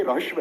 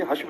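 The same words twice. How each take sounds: First: "रहस्व" with the र sounded before the ह; र sound first. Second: Said in the usual way. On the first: Shown as a demonstration. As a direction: say "रहस्व", opening on a full र. ("रहस्व" में पहले पूरा र, फिर ह) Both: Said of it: "इसको पहले बोला करो हमेशा".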